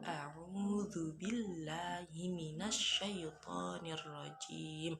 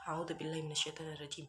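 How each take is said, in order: First: The phrase is recited slowly and calmly. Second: The phrase is recited quickly and hurriedly. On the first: The speaker calls it right. "Kita baca ta'awudnya juga pelan-pelan" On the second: The speaker calls it wrong. "Bukan seperti ... itu bukan membaca tartil"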